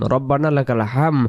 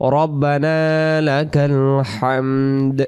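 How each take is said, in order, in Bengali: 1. শেষ শব্দটি m ধ্বনিতে শেষ হয়। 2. শেষ শব্দটি d ধ্বনিতে শেষ হয়। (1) "এখানে দাল অক্ষরটা আদি হলো না" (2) "আমরা বলবো রব্বানা লাকাল হামদ"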